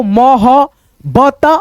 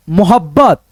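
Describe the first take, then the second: First: मोह-बत- slowly, piece by piece, left hanging; slow separated syllables in मोह-बत-; sounding out. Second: Said in the usual way. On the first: Shown as a demonstration. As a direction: spell out the sounds of मोह-बत- before blending. Teacher sounding out letters.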